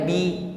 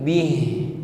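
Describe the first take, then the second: First: The word ends without any h sound. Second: The word ends with a drawn-out breathy h. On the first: The speaker calls it wrong. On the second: The speaker calls it right. "memanjang bunyi huruf ha-nya"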